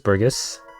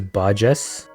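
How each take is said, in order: First: The G is pronounced as a hard G. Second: The G is pronounced as a J sound. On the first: The speaker calls it wrong. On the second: The speaker calls it right.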